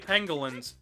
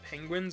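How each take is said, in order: First: It is said with an added L sound. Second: It is said the usual way, without an L. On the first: The speaker calls it wrong. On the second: The speaker calls it right.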